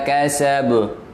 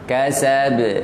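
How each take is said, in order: First: The final bouncing consonant sounds thick and heavy. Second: The final bouncing consonant sounds thin and light. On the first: The speaker calls it wrong. "jangan wa ma kasab, sabu, ini tebal, salah" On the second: The speaker calls it right. "Kasab, tipis"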